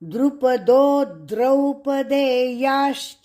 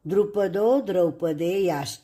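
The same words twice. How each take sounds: First: The syllable 'do' is clearly stressed. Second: The syllable 'do' is not stressed. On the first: The speaker calls it right. "दो के ऊपर आघात" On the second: The speaker calls it wrong. "गलत उच्चार"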